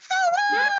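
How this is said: It is said in a high voice.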